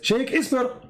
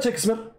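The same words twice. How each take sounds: First: The name has an Arabic-sounding pronunciation. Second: The name has its usual English pronunciation. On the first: This is presented as the true Arabic form of the name. The speaker calls it right. "His real name is Shakespeare" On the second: This is presented as the false form of the name. The speaker calls it wrong. "his real name is not Shakespeare"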